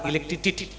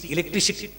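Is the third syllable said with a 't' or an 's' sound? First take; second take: t; s. First: The third syllable starts with a 't' sound. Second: The third syllable starts with an 's' sound. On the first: The speaker calls it wrong. "Sir म्हटले टी नाही सी" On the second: The speaker calls it right. "टी नाही सी"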